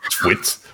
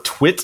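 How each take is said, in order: First: It is said in a put-on British accent. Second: It is said in the speaker's ordinary accent.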